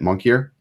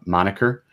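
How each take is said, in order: First: The word starts like 'monkey', almost 'monkey-er'. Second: The word starts like 'Monica', with three syllables.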